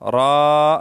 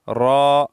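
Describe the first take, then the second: First: The vowel is drawn out too long. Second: The vowel is kept short. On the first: The speaker calls it wrong. "और ज्यादा लंबा ना करें। रा ये गलत है" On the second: The speaker calls it right. "इतना मकदार ठीक है। रॉ, बस इसी तरह।"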